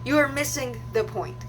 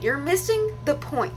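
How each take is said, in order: First: Full, separate "are" in "You are missing"; insistent repeat. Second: "missing" pitched high and drawn out; exasperated emphasis. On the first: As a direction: spell it out, weight on "are". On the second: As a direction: stretch "missing", falling on "point". Re-enacting the argument. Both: Retold or imitated.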